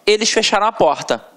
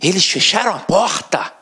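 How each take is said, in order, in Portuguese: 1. A voz desce no final, como numa afirmação. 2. A voz sobe no final, como numa pergunta. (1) "isso vai mudar a entonação do camarada na hora da pronúncia"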